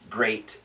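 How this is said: It is said in an American accent. "in America, we say great"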